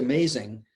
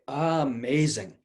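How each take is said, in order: First: The first vowel is short and flat. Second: The first vowel is held and drawn out. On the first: The speaker calls it wrong. "Don't say amazing" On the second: The speaker calls it right. "spend a little moment on the ah"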